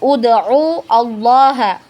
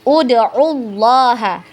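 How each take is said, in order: First: A glottal stop separates the two words. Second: The words run together without a glottal stop. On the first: The speaker calls it wrong. "Jadi bukan ud'u Allah" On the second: The speaker calls it right. "hamzah wasolnya ini tidak kita baca lagi ketika di tengah"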